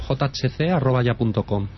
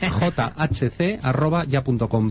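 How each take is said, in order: First: It is said fast. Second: It is said slowly.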